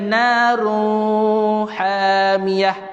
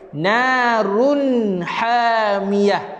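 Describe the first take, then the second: First: The nun sound is drawn out and nasal. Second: The nun sound is short and clear. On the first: The speaker calls it wrong. "Itu dengung" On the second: The speaker calls it right. "Jelas dan terang bunyi tanwin itu"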